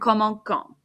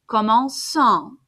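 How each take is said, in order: First: The c is pronounced as a k sound. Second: The c is pronounced as an s sound. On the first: The speaker calls it wrong. "Sounds much better than commençons" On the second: The speaker calls it right. "because it makes an S sound"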